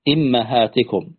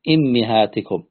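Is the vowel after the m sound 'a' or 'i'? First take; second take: a; i. First: The vowel after the m is a. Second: The vowel after the m is i. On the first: "كسر الهمزة وفتح الميم" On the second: "بكسر الهمزة والميم"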